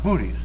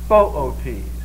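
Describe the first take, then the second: First: It sounds like the word booties. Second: It does not sound like booties. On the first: The speaker calls it wrong. "it's not pronounced booties" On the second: The speaker calls it right. "It's Boötes"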